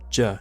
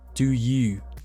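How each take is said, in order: First: It is squeezed into one quick syllable, je. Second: Both words are said fully and separately. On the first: "you can just say je, especially when you say you fast" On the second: "when you ask"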